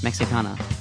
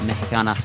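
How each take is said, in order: First: The x is said as a ks sound. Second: The x is said as an h-like sound. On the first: The speaker calls it wrong. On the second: The speaker calls it right.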